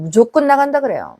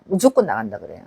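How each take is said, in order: First: Said in the usual way. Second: Much lower and softer repeat of 무조건 나간다 그래요; quiet low echo of the line; low quiet aside. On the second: Real, not acted. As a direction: drop the voice to a low murmur.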